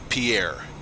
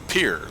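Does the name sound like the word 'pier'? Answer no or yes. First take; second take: no; yes. First: The name does not sound like 'pier'. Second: The name sounds like the word 'pier'. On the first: The speaker calls it wrong. "you don't say Pierre" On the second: The speaker calls it right. "You say pier, like the like the boat dock"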